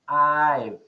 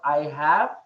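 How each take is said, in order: First: The two words are contracted into one. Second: The two words are said in full. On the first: "Make a contraction" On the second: "instead of I have"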